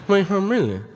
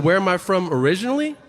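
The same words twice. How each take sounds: First: Higher, garbled Cajun mumble; unintelligible Cajun. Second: Said in the usual way. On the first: Retold or imitated. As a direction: mimic a Cajun running the words into mush. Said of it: "decipher that what he's saying is". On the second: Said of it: "I said".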